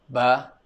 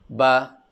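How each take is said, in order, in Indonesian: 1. Vokalnya dipendekkan. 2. Vokalnya dipendekkan.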